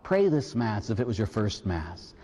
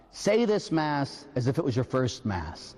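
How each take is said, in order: First: Lower, measured plea stressing pray; solemn reworded reading. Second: Solemn sign reading. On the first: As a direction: turn the sign into a charge to the people. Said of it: "O people of God". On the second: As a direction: read the priest's inscription gravely. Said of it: "a little sign that says". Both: Shown as a demonstration.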